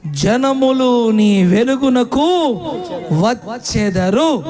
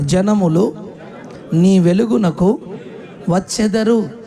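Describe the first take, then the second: First: Slow, drawn-out, louder verse reading; emphatic scripture reading. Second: Call and response. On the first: Acted. Preacher reading the verse slowly to the church. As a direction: stretch every word of the verse out. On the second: Shown as a demonstration. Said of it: "నాతో కలిసి అందరూ చెప్పండి".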